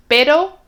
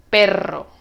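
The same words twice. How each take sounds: First: "Pero" with one quick tap on the r, pitch lifted; soft single-tap r. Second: "perro" with the rr rolled in several bounces; strong trilled r. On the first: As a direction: flick the r in "Pero" just once. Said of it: "Cuando tú dices pero, sea claramente una". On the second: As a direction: trill the rr of "perro" firmly, tune falling. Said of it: "perro sea claramente dos". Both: Shown as a demonstration.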